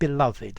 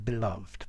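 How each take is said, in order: First: The final -ed is sounded as its own syllable. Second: The final -ed is not sounded as a syllable. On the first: The speaker calls it right. "this accent on the E, this grave accent. This is telling us to pronounce it beloved" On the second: The speaker calls it wrong. "as opposed to"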